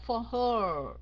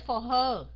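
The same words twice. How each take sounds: First: "her" held long into the R; drawn-out ending. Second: "her" cut short, no R held; wrong short ending. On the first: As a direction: stretch the end of "for her" slowly. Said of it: "mà là for her". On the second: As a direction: show the mistake: a quick, louder "for her". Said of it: "không phải for her". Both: Shown as a demonstration.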